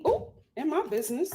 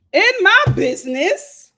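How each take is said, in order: First: Said in the usual way. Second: Louder, higher. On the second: Real, not acted.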